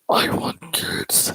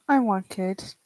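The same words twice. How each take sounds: First: It is said in a creepy way. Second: It is said in a plain, sincere way.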